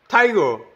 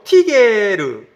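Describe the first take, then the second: First: The first vowel is an 'eye' sound. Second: The first vowel is a plain 'ee' sound. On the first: The word is read the usual English way. The speaker calls it wrong. "뭐 이렇게 읽어야 될 것을 뭐 베어, 뭐 타이거" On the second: The word is read as it is spelled. The speaker calls it right. "이거는 뭐 티게르"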